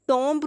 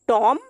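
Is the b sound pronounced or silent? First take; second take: pronounced; silent. First: A b sound is pronounced at the end. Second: The word ends at the m sound. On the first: The speaker calls it wrong. "टॉम्ब नहीं पढ़ेंगे" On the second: The speaker calls it right. "टॉम यहाँ पे इसका एंड हो जाता है"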